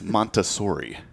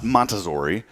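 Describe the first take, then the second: First: The middle consonant is a hissing S sound. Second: The middle consonant is a buzzing Z sound. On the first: The speaker calls it right. "It is" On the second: The speaker calls it wrong. "It is not"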